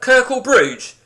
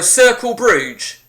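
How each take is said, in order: First: The first word begins with a K sound. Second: The first word begins with an S sound.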